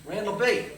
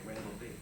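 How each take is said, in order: First: High, loud phone greeting; excited hail. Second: Said in the usual way. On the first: Acted. Friend phoning an old pal, hollering the nickname. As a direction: call out the nickname heartily. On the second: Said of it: "That was my nickname".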